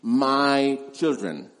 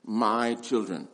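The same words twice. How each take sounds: First: Put-on "my" slow and leaned on, "children" trailing after; stress on my. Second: Put-on softer, lower "my children", said tenderly; personal. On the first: Preacher singling out John's phrase, slow stress on "my". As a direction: draw out "my" in "my children". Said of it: "interesting to note this phrase". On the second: Preacher savouring John's affection, soft and personal. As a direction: let "my children" sound intimate. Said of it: "Very personal". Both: Shown as a demonstration.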